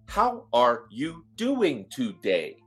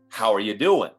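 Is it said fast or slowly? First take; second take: slowly; fast. First: It is said slowly, word by word. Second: It is said fast, words run together.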